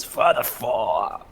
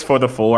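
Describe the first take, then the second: First: Slow, drawn-out character voice; Noel voice. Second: Said in the usual way. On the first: Acted. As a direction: drag it out in Noel's voice. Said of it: "in my Noel voice". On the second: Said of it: "when he says".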